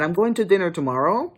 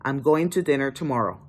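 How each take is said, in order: First: "tomorrow" rises like a question, higher; a question tune up on "tomorrow"; rising uptalk. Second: "tomorrow" falls flat like a statement; a plain statement tune down on "tomorrow"; falling statement. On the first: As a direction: lift the end of "tomorrow" as if asking. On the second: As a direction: end "tomorrow" on a firm fall. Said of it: "But if you say". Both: Shown as a demonstration.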